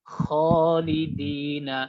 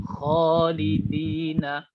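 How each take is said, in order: Both takes have the same delivery.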